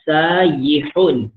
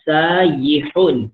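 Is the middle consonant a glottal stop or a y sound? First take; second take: y sound; y sound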